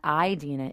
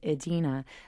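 First: The first vowel is a long I sound. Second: The first vowel is a short I sound. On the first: The speaker calls it wrong. "it's not Idina" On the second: The speaker calls it right. "it's [name], a short I"

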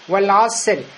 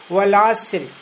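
First: The r and s sounds are thin and light. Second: The same.

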